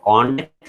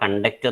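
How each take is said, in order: First: The stress is on the first syllable. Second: The stress is on the second syllable. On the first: It is used as a noun. "noun ആയിട്ട് use ചെയ്യുമ്പോൾ" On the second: It is used as a verb. "വേർബായിട്ട് use ചെയ്യുമ്പോൾ"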